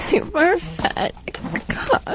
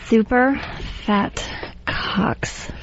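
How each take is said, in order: First: It is said in a crying voice. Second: It is read in a normal voice.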